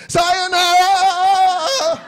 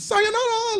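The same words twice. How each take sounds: First: High, loud, long-drawn anime farewell; imitated anime shriek, stretched right out; cartoon character. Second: Very high cartoon squeak; imitating a high cartoon farewell; high-pitched anime voice. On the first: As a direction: belt it out in a squealing cartoon voice. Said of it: "she's a cartoon character". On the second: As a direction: chirp it way up like an anime girl. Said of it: "like this, like, a high pitch".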